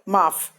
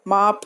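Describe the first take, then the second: First: The final consonant is an f sound. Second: The final consonant is an aspirated ph sound. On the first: The speaker calls it right. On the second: The speaker calls it wrong.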